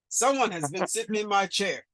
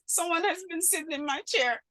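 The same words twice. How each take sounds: First: It is said in a big, deep voice. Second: It is said in a tiny, small voice. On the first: "in a great big voice" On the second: "in his wee little voice"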